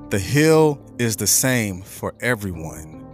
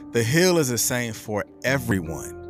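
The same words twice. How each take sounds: First: The sentence is said at a slow pace. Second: The sentence is said at a normal pace.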